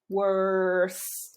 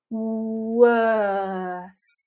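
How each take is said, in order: First: It is said with an American accent, r pronounced. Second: It is said with a British accent, r dropped. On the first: "choosing an American pronunciation here is going to help" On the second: "if you want a British uh, you just need to let everything go"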